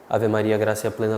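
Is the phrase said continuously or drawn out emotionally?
continuous. It flows in one breath without pauses. The prayer is offered simply, keeping attention. The speaker calls it right. "Aqui eu não precisei fazer nenhuma pausa"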